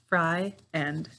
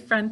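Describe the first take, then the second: First: It is split into two syllables, fry-end. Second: It is said normally as one syllable.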